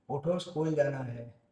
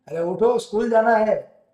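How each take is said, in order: First: It is said at normal volume. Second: It is said louder, with a raised voice.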